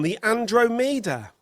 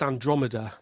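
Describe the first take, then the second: First: Andromeda with the stress on DRO and a long "oh" in the middle, spoken higher and slowly; wrong pronunciation. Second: Andromeda with the stress on DROM and a short "o", plainly spoken; correct pronunciation. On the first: Retold or imitated. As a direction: say Andromeda as an-DROH-mi-da, higher and slower. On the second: Shown as a demonstration. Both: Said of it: "it's pronounced Andromeda".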